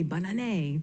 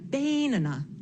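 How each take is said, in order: First: The stress is on the last syllable. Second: The stress is on the first syllable. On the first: "if I accented the last syllable" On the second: "if I had accented the first syllable"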